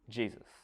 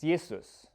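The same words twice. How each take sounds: First: The word begins with a J sound. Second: The word begins with a Y sound. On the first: This is the English pronunciation. "pronounce it like it was English" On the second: This is the German pronunciation. "in German, a J is pronounced as a, a Y. It's Jesus"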